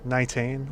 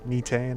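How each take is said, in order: First: "Nitane" offered tentatively, first vowel as in "night"; unsure, drawn-out try at "Nitane"; alternative pronunciation. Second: "Netane" as a second guess, opening "nee"; unsure try at "Netane", starting "nee"; alternative pronunciation. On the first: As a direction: say "Nitane" slowly, as one guess. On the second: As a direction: say "Netane" with first syllable like "knee". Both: Shown as a demonstration. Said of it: "or however you pronounce that".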